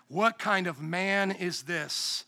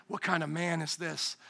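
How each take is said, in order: First: "What" drawn out and leaned on, very slow and softer; stress on what. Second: "kind" stressed, quieter and lower. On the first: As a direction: linger on "What" in awe, slowly. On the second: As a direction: hush it, landing on "kind". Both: Shown as a demonstration.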